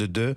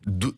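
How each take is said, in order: First: The vowel is the rounded French 'eu' sound. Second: The vowel is a plain 'oo' sound. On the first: The speaker calls it right. "on demande deux" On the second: The speaker calls it wrong. "je disais dou"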